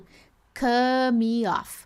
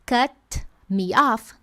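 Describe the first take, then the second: First: The t in cut is left out. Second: The t in cut is fully released. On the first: "Eu não excluo o T, eu não falo cut me off" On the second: "Ao invés de falar cut me off"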